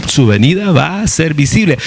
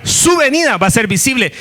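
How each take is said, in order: First: Said in the usual way. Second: Whole line lifted much higher, "su" stressed; emphatic higher repeat. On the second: Shown as a demonstration. Preacher hammering home the Second Coming, emphatic and high. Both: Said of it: "Ahora, ahora".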